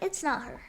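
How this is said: It is said lightly and softly.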